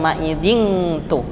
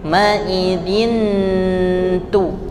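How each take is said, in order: First: The n is said as ng. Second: The n blends into the t. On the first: The speaker calls it wrong. "bukan ma'idhin tu, bukan ng" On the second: The speaker calls it right. "Jadi ujung lidah sudah siap di t-nya"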